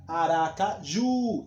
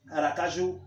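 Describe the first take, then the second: First: Aracaju said slowly, leaning on the final ju; slow it down and hit the last syllable of Aracaju; stress on JU. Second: Said in the usual way. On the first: Shown as a demonstration. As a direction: model the stress on ju in Aracaju for students. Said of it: "o ju é a, é a sílaba mais forte". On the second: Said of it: "é a sílaba mais forte".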